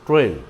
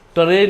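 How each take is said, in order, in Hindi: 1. t ध्वनि धुंधली है और पूरी तरह नहीं बोली गई। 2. t ध्वनि साफ़ और पूरी तरह बोली गई है। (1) "टी का भी क्लियर उच्चारण नहीं आएगा" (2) "ट्रेन नहीं कहे"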